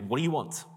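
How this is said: It is asked in an irritated, impatient tone.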